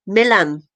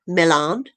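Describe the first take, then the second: First: "Milan" stressed on the first syllable, weak second vowel; name said MILL-un. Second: "Milan" with a long open AHN ending; pronounced like the city. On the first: Host naming the filmmaker's cellist son, "Milan" as MILL-un. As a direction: say "Milan" as MILL-un, with a short, unstressed ending. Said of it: "It's spelt like Milan". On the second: Host explaining how the name is spelt, "Milan" as mi-LAHN. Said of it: "I don't know if that's how it's pronounced". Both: Shown as a demonstration.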